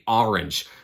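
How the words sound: It is said in a Boston accent. "I have an accent and I say orange"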